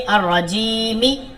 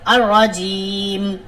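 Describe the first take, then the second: First: The word ends with an added final vowel. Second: The word ends on a bare final consonant. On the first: The reading carries on without stopping. The speaker calls it wrong. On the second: The reader stops at the end of the verse. The speaker calls it right.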